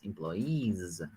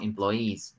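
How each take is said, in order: First: The word ends with a buzzing z sound. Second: The word ends with a hissing s sound. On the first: The speaker calls it right. "It's employees" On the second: The speaker calls it wrong. "It's not an S. It's not employees"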